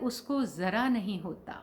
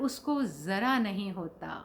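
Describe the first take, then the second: No difference in how they are said.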